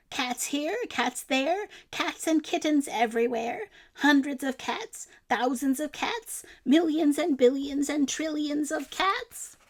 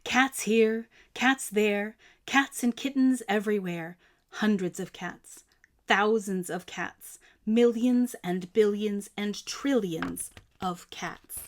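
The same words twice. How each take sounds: First: Higher, rising, counting in disbelief; wife listing the cats in alarm; old woman's dismay. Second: Said in the usual way. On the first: A narrator's reading. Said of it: "she cried".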